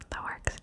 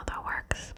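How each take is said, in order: Both takes have the same delivery.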